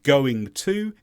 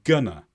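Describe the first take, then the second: First: Both words are pronounced fully with every consonant. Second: The words merge into gonna, dropping the g and t. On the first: "instead of" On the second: "it's gonna"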